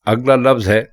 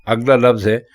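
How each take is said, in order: The two takes are said the same way.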